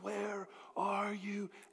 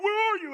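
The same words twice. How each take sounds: First: The question sounds warm and tender. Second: The question sounds harsh and accusing. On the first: The asker is searching for someone out of love. The speaker calls it right. "The tone was that of love" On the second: The asker is scolding someone for a mistake. The speaker calls it wrong. "I always thought of that like, hey"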